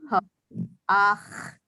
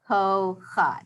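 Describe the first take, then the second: First: The word ends with a vowel then a throaty ch. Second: The word ends with an h sound then a vowel. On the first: The speaker calls it right. "it's actually ko ach" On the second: The speaker calls it wrong. "it looks like it's going to be ko ha"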